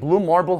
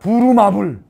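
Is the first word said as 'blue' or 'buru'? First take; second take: blue; buru. First: The first word is said with a bl cluster, blue. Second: The first word is said as two syllables, bu-ru. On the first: The speaker calls it right. "앞으로 이제 발음 이렇게 해야 돼" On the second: The speaker calls it wrong. "아니야"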